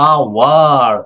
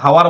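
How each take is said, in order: First: The word starts directly with a vowel sound. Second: The word starts with an audible h sound. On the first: The speaker calls it right. "এটাকে বলা হয়েছে কি? আওয়ার" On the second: The speaker calls it wrong. "হাওয়ার বলা হয় না"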